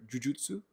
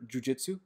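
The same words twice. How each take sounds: First: Jujutsu said the Japanese way, "joo-JOO-tsoo"; Japanese pronunciation. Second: Jiu-Jitsu said the American way, "joo-JIT-soo"; English pronunciation. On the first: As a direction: say Jujutsu with "u" vowels, Japanese style. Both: Shown as a demonstration. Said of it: "the way Japanese pronounce Jiu-Jitsu".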